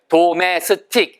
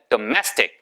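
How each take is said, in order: First: Each syllable is said separately, in four beats. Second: Syllables blend together into two rhythmic beats. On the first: The speaker calls it wrong. "네 글자잖아요" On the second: The speaker calls it right. "두 글자밖에 되지 않아요"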